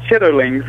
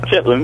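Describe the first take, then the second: First: The word is said with all three syllables. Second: The word is squeezed into two syllables. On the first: This is the standard pronunciation. "the pronunciation for the word is chitterlings" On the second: This is how the speaker's community says it. "We call them chitlins"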